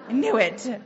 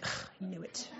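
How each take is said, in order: First: Out-loud mock exasperation; punchy retold self-reproach; retold emphatic admission. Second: Very soft, groaned admission; hushed mock exasperation; retold grudging admission. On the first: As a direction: concede it firmly, acting out frustration. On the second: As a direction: grumble it under your breath, acting out defeat. Retold reaction to being told off.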